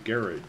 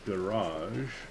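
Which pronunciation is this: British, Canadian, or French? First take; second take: British; Canadian. First: It is said the British way. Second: It is said the Canadian way. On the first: "the British would say garage" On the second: "we pronounce garage garage"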